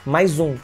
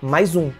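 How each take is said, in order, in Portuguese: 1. As palavras se juntam com um som de z. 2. As palavras se juntam com um som de z.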